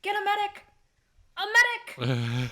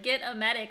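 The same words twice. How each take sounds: First: Hammed-up bad acting, loud with a halting repeat; William Shatner. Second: Mildly dramatic plea; a touch of drama, deliberately delivered. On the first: Podcaster mocking the actor's delivery, vaguely raised voice. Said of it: "vaguely raising his voice". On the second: Shown as a demonstration. Podcaster showing how the line was meant, mildly dramatic. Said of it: "like, this very dramatic".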